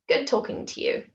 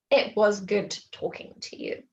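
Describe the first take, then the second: First: Casual sign-off opening right on "Good"; cut-off casual form. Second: Said in the usual way. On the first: Shown as a demonstration. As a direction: start straight on a higher "Good". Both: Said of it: "rather than".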